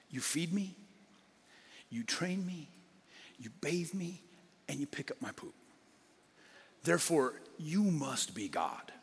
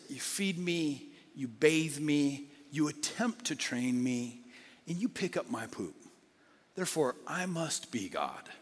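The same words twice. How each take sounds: First: Soft, devoted voice that fades to a whisper; a mild, grateful dog in awe of its owner; adoring dog. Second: Slow, drawn-out lazy self-importance; a lightly voiced cat who thinks it is in charge; smug cat. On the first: Retold or imitated. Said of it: "a dog looks at its owner and says". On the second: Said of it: "Cat looks at the owner and says".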